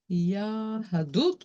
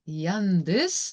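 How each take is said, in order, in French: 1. Il est prononcé selon une prononciation hébraïque. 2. Il est prononcé selon une prononciation yiddish.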